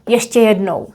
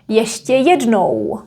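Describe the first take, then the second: First: The vowels are said quickly and naturally. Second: The vowels are drawn out and strongly exaggerated. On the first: "as a normal native speaker would say" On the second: "I am emphasizing it. Nobody is gonna speak like that"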